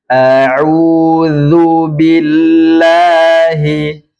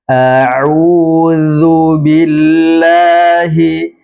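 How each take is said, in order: Both takes have the same delivery.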